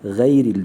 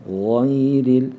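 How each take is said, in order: First: Gayril with a thin e-like vowel; student error; wrong thin gayril. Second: Gayril with a full open a on the ghayn. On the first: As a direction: show the thin-vowel mistake. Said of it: "bazı arkadaşlarımız gayril diyor". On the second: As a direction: say gayril with a clear a. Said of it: "fetha sesinde A sesi vereceğiz". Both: Shown as a demonstration.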